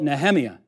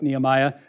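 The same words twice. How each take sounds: First: The stress falls on a different syllable. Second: The stress falls on the familiar English syllable. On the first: This is how Hebrew scholars name the book. The speaker calls it wrong. "the emphasis is on the wrong syllable" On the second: This is the usual English name of the book. The speaker calls it right. "don't even call the book Nehemiah"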